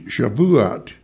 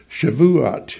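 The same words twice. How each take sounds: First: Shavuot in three syllables, sha-vu-ot. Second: Shavuot again, three syllables sha-vu-ot. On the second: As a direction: repeat Shavuot slowly as sha-vu-ot. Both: Shown as a demonstration. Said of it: "three syllables".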